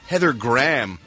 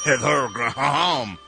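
First: The name is said with an American accent. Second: The name is said with a French accent.

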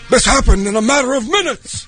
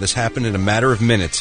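First: It is said in a put-on imitated character voice. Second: It is said in the speaker's own normal voice.

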